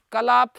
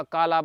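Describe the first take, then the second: First: Said in the usual way. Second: कालाप said with a long first aa, kaa-laap, not कलाप; long first vowel. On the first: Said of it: "नहीं बनेगा". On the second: Shown as a demonstration. Teacher correcting a student's derived word form, drawing out the long aa of कालाप. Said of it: "नहीं बनेगा, कालाप बनेगा".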